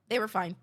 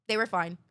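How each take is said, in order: Both takes have the same delivery.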